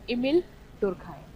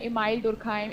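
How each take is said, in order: First: The first name's second syllable sounds like 'meel'. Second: The first name's second syllable sounds like 'mile'. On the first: The speaker calls it right. "इसका प्रोनाउंसिएशन है" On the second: The speaker calls it wrong. "कुछ बोलते हैं"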